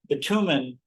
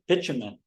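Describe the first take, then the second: First: It is said with an American pronunciation. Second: It is said with a British pronunciation. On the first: "which is the way we say it" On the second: "the British pronounce it"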